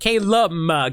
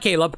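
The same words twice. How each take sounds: First: The name ends with an M sound. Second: The name ends with a B sound. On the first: The speaker calls it right. "Caleb with an M" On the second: The speaker calls it wrong. "Not Caleb"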